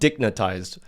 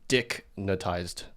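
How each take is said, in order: First: The word runs together quickly without a break. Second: There is a break after the first syllable. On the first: The first part is not highlighted. "he didn't pause like that ... he said it quick" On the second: The first part is highlighted on purpose. "I'm purposely saying dicknatized to capitalize on that"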